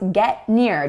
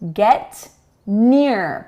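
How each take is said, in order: First: The T before the N is not released. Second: The T before the N is fully released.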